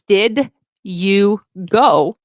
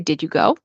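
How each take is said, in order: First: The d and y sounds stay separate. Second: The d and y sounds merge into j. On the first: "instead of saying" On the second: "the d and the y sound will turn into j"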